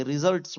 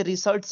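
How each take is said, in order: First: "रिजल्ट्स" with a voiced z, ri-zalts; z sound. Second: "रिजल्ट्स" with a hissed s, ri-salts; s sound. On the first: Teacher showing learners the reading, "रिजल्ट्स" with z. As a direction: say "रिजल्ट्स" with z in the middle. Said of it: "रिजल्ट्स बोलते हैं". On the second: Teacher showing what not to read, "रिजल्ट्स" with s. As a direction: say "रिजल्ट्स" with s in the middle. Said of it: "इसे रिजल्ट्स नहीं पढ़ेंगे". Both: Shown as a demonstration.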